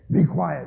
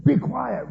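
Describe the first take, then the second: First: Said in the usual way. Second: Higher, louder mock angry retort; angry be quiet. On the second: Kids snapping at each other, mock angry. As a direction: say it with venom and disrespect. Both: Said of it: "with all the same anger".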